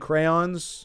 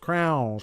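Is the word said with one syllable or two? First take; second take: two; one. First: It is said in two syllables, cray-ons. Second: It is said in one syllable, like crowns. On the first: The speaker calls it right. "Instead of saying crayons" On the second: The speaker calls it wrong. "kids that called crayons crowns"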